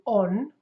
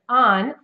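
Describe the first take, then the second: First: A closed, rounded British vowel. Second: An open-jawed North American vowel. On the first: "On is much more closed" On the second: "my jaw is more wide, uh, more open"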